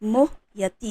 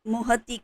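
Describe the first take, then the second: First: The word is said with a 'ya' syllable after 'moh'. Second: The word is said without the 'ya' syllable. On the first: The speaker calls it right. "मोह यति है" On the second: The speaker calls it wrong. "आप सब मोह य, मोहति मोहति करते हैं"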